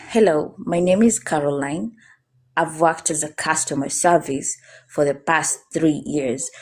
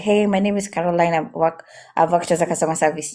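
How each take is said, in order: First: Measured introduction, "customer service" and "past three years" fully pronounced; calm, emphasized words. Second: Hurried self-introduction with words run together; nervous, very fast. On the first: Job coach demonstrates a calm interview introduction, every word clearly emphasized. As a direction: give "Hello", "Caroline" and "three years" each their full weight, unhurried. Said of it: "I'm emphasizing on my words". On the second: Job coach shows how nerves spoil an introduction, rushed and swallowed. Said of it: "when I'm nervous, I talk very fast".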